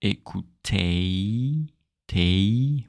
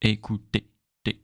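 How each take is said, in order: First: "écoutez, té" stretched slowly with a gliding final vowel; wrong drawn-out écoutez. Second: "Écoutez, té" with a short, clipped final é; short French écoutez. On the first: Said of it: "We don't say é". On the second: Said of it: "Very short, you know". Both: Shown as a demonstration.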